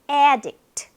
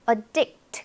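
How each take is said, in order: First: The stress is on the first syllable. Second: The stress is on the second syllable. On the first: It is a noun meaning an addicted person. "앞에 강세 있죠?" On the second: It is a verb meaning to make addicted. "강세가 addict에 있다 보니까 앞에 이 a는요, 약하게"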